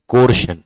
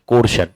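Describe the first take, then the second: No difference in how they are said.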